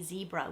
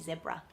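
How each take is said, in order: First: It is said the American way. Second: It is said the Australian way. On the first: "We don't say zebra" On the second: "we say zebra"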